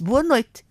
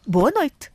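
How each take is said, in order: First: High, louder "Boa noite" in a newsreader's formal greeting. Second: Put-on high, louder "Boa noite" from a sincere old granny answering back; grandmother replying. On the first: Retold or imitated. TV newsreader opening the bulletin with a formal greeting. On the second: Grandmother earnestly greeting the TV newsreader back. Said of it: "a minha avó respondeu-lhe".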